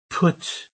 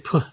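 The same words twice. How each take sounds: First: The final T is pronounced as a clear T. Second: The final T is replaced by a glottal stop. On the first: "Instead of saying put" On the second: "you would say put"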